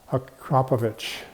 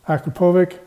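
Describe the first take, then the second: First: The name ends with a 'ch' sound. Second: The name ends without a 'ch' sound. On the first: The speaker calls it right. "Like there's an H on the end" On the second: The speaker calls it wrong. "I always call them Akrapovic"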